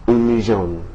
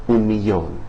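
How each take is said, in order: No difference in how they are said.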